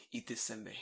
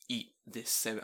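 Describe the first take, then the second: First: Said in the usual way. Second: "Eat this senbei" slowed, each word set apart; imitated stern insistence on "Eat this senbei"; insistent order. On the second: Repeated order after being refused.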